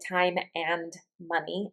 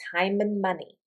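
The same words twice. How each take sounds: First: 'And' is said fully as a separate word. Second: 'And' shrinks to 'n', running together. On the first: The speaker calls it wrong. "I don't say time and money" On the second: The speaker calls it right. "It almost sounds like one word"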